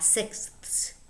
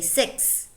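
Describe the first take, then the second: First: The th sound is clearly pronounced. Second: It sounds like six, without the th. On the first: "and not sixths, because that's very difficult" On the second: "you say six, just like the number six"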